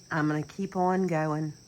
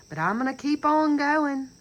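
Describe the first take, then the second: First: Said in the usual way. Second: Raised, forceful declaration of resolve; loud vow. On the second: Real, not acted. Speaking to viewers, she loudly vows to keep going. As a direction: belt out her promise to keep going.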